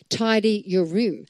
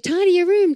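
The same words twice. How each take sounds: First: It is said firmly, with commanding authority. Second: It is said mildly, without authority.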